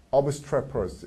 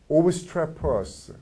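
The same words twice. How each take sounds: First: Said in the usual way. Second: Obstreperous dragged out very slowly; slow drilled obstreperous. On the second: Shown as a demonstration. Teacher drilling a word for students, slowly. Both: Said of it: "vocabulary drill".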